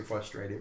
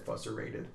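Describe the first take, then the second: First: Said in the usual way. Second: "fusserated", first R dropped from frustrated; child's mispronunciation. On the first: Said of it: "she tried to say frustrated". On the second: Retold or imitated. Dad quoting his little daughter's mistake, mispronounced "fusserated". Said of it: "but she said fusserated".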